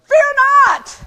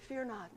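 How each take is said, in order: First: It is said forcefully, with authority. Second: It is said meekly, without force.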